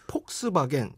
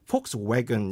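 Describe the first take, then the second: First: The second part is a strong 'bagen'. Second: The second part is a softer 'wagon'. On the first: The speaker calls it wrong. "우리나라에선 폭스바겐" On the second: The speaker calls it right. "들어보면 폭스웨건"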